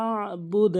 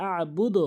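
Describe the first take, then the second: First: আবুদ said slowly with the vowel held; correct pronunciation. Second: আবুদ said the common wrong way, quick and clipped; wrong pronunciation. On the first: Teacher modelling the correct Quran pronunciation. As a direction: say আবুদ carefully, stretching it. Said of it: "বলতে হবে আবুদ". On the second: Teacher imitating students' wrong pronunciation. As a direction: mimic the common mistake on আবুদ. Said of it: "অনেকে বলে আবুদ". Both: Shown as a demonstration.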